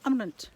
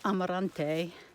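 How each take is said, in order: First: The final vowel is swallowed and barely heard. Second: The final vowel is pronounced fully and clearly. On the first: The speaker calls it right. "they do sort of pronounce the E on the end of words, but it's ... sort of almost a swallowed" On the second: The speaker calls it wrong. "Portuguese isn't like Spanish, so you wouldn't say Amarante"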